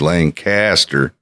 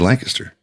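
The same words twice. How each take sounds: First: It is pronounced the way outsiders say it. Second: It is pronounced the way locals say it. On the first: The speaker is not from the area. "if you're not from around here, you're going to say Lancaster" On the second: The speaker is from the area. "if you're from here, you say Lancaster"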